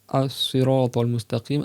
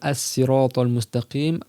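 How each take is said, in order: First: The word begins with an emphatic s sound. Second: The word begins with a plain s sound. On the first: "un S plus emphatique" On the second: "avec un sin"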